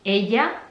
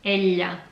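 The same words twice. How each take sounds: First: Ella as "eh-ya", with a Y glide; Spanish pronunciation. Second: Ella as "eh-lya", with a palatal L; Catalan pronunciation. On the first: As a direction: say ella with no L sound. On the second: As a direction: press the tongue up for the ll in ella. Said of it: "In Catalan is ella". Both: Shown as a demonstration.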